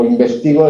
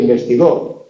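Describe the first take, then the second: First: Investigo stressed on the TI; penultimate stress. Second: Investigó stressed on the last syllable; final stress. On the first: Teacher contrasting present with past, stress on TI in investigo. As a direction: hit the third syllable, inves-TI-go. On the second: Teacher contrasting past with present, stress on GÓ in investigó. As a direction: land on the end, investi-GÓ. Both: Shown as a demonstration. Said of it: "esa movilidad del acento".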